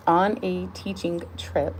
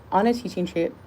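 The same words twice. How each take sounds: First: "On a teaching trip" slow and deliberate; careful retake. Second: Words slipping into an odd accent; accidental accent on "On a teaching trip"; unintended odd accent. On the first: Reader retries after slipping into an accent, slow careful retake. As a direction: take each word of "teaching trip" slowly and firmly. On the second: Reader stumbles into devotional, accidental odd accent. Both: Real, not acted. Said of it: "I don't know what accent that is".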